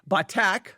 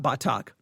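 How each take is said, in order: First: The word is said the Hebrew way. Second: The word is said the West Texas way. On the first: The speaker calls it right. "Batak, not Batak" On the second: The speaker calls it wrong. "I was saying it incorrectly"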